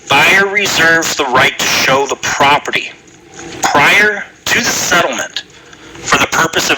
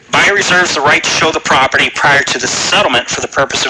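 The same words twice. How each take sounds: First: It is read more slowly. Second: It is read at a normal pace.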